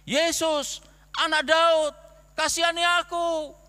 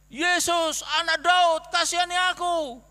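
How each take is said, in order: First: Loud, high desperate shout to Jesus; louder and higher, pleading shout for mercy; blind beggar crying out. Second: Loud, high desperate cry, refusing to be hushed; an even louder pleading shout for mercy. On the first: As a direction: call out over the crowd, begging. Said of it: "Langsung dia teriak-teriak kan". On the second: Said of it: "suruh diam tapi tetap lebih keras ya". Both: Acted.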